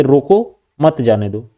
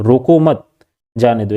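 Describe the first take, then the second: First: "रोको" alone, pause, then "मत जाने दो" together; pause after रोको. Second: "रोको मत" as one unit, pause, then "जाने दो"; pause after मत. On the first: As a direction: end रोको on a rise, break, join मत to जाने दो. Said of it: "बोला गया ना जाने दो". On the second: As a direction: join मत to रोको, then break before जाने दो. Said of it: "दो चीज़ें कही गई है". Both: Shown as a demonstration.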